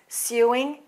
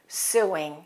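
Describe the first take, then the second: First: A British accent with a y sound before oo. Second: An American accent with no y sound before oo. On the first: "So in British English, it's" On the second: "and in American English, it's"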